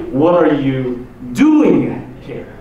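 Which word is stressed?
doing. The stress is on the word doing.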